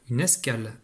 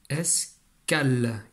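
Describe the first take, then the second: First: Said in the usual way. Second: "escale" very slow, split as "es... cale"; découpage en syllabes. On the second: Shown as a demonstration. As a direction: pause inside "escale" and draw out its end. (« es… cale », syllabes détachées et étirées) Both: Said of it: "on a trois syllabes".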